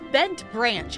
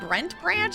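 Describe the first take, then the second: First: The first word starts with a plain B sound. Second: The first word starts with a BR sound. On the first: The speaker calls it right. "I think it's it's Bent Branch" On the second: The speaker calls it wrong. "I was saying Brent Branch. I don't know where I was getting the extra R from"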